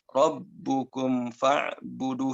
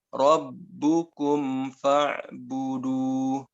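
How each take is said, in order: First: The m slides early into the f sound. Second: The m is fully formed before the f. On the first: The speaker calls it wrong. "yang salahnya seperti ini. ... Sudah masuk ke makhraj fa" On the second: The speaker calls it right. "sempurnakan dulu huruf mimnya, baru ke huruf fa"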